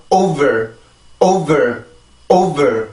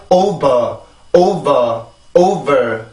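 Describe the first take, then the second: First: Over with a clear v and a renewed push on ver; over with secondary stress on its r-coloured ending; second syllable pushed. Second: Over said like "oba", the ending left unstressed; Korean-style over with a weak ending; slack second syllable. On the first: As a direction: hit the start of over, then tense the voice once more on ver. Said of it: "소리가 이렇게 그 성대가 한 번 더 치고". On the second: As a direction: say over with a loose, unstressed "ba" for ver. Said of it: "이렇게 발음을 하면 안 되고". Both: Shown as a demonstration.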